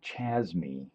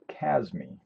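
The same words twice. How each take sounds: First: The word begins with a ch sound. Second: The word begins with a k sound. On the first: The speaker calls it wrong. "I want to say Chasme, but I'm sure that's not how you pronounce it" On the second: The speaker calls it right. "like Chimera"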